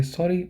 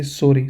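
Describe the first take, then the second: First: "sorry" English style, higher and softer with an English r. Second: "sorry" German style with a tapped r, firmer. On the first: Teacher showing students the English sorry, high and soft. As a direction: say "sorry" like an English speaker, light and lifted. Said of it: "pronunciation in English we say". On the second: Teacher showing students the German sorry, firm German r. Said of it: "but in German we say". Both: Shown as a demonstration.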